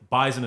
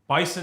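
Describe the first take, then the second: First: It is said in a Western New York accent. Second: It is said in a general American accent. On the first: "how we pronounce it in Western New York" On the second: "the way that normal people pronounce it"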